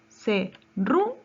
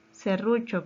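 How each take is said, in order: First: "Serrucho" broken slowly into syllables, RU punched louder; slow teacherly split of "Serrucho", weight on the middle syllable; stress on RU. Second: Said in the usual way. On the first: Shown as a demonstration. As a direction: say "Serrucho" as se... RU... cho, leaning hard on RU. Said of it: "Su mayor fuerza de voz está en la penúltima". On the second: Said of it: "Su mayor fuerza de voz".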